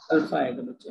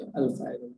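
First: Said in the usual way. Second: alpha आएगा said again much softer and lower, trailing off; soft repeat. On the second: Real, not acted. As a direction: let the repeat of alpha fall away quietly under the breath. Teacher repeats answer, softer. (Alpha आएगा धीमे से दोहराया)

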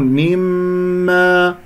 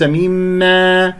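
First: Slow chanted مما with full ghunna on the meem; complete ghunna. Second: Drawn-out, badly finished مما as the mistake; faulty ghunna. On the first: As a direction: hold a long nasal hum on the doubled م of مما. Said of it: "غنة أكمل ما تكون". (غنة كاملة في ميم مما) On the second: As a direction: say مما wrongly, letting a stray sound into the held meem. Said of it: "وليس مما". (نطق مما بغنة خاطئة) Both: Shown as a demonstration.

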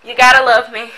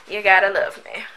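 First: Said through a laugh, louder. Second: Said in the usual way. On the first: Real, not acted. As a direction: tease them with a laugh. Playful self-praise, laughing.

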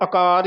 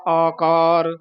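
First: ਆਕਾਰ shortened to "a-kaar"; mistaken short first vowel. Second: ਆਕਾਰ as "aa-kaar"; both vowels long. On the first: Teacher quoting a common slip, short opening a. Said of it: "ਆਕਾਰ ਹੀ ਕਹਿ ਜਾਂਦੇ ਹਾਂ". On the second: Teacher showing two long vowels, drawn-out. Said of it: "ਦੋ ਕੰਨੇ ਹਨ". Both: Shown as a demonstration.

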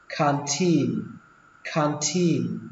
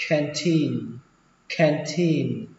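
First: "canteen" pronounced khan-thin, with an "ah" vowel; A as open "ah". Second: "canteen" pronounced khen-thin, A as in "cat"; flattened A. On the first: Teacher models first reading, "canteen" as khan-thin. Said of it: "Xuống giọng âm đầu tiên". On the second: Teacher shows second reading, "canteen" with flattened A. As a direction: flatten the first vowel of "canteen" to "æ". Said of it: "đọc âm A này thành âm A bẹt". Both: Shown as a demonstration.

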